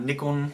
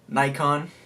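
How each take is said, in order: First: It is said in a British way. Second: It is said in a non-British way.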